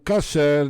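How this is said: The first vowel sounds like a. "é usado mais pelos judeus sefaradim"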